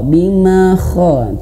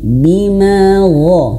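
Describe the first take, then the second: First: The consonant after bima is voiceless. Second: The consonant after bima is voiced. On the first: The speaker calls it wrong. "seperti kho, ... tidak ya" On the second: The speaker calls it right. "huruf ghain"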